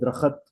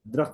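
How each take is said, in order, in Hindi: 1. एक स्वर अंतिम समूह को तोड़ देता है। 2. अंतिम kht समूह एक साथ बोला जाता है।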